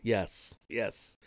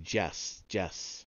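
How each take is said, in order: First: Said in the usual way. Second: "Jess" said with a j or ch sound in place of the y, softly; strange accent. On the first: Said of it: "his strange accent made the words". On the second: A narrator's reading. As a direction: turn "Jess, Jess" into a soft jess-jess. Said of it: "his strange accent made the words come out like".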